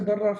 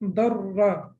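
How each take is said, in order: First: The middle consonant is short, single. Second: The middle consonant is held long, doubled. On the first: The speaker calls it wrong. "So we will not say darra" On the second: The speaker calls it right. "we have to read it as if we have two letters over there"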